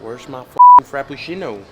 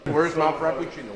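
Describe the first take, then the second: First: It is said in his natural everyday voice. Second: It is said in a put-on character voice. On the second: "that's not your voice"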